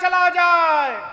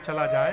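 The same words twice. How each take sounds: First: It is said loudly, as if calling out. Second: It is said quietly, as to someone nearby. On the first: It is meant to be overheard by someone farther away. "बोल रही थी सीता जी को लेकिन सुना रही थी राम जी को" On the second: It is meant only for the person standing beside. "ऐसे बोलेंगे ना"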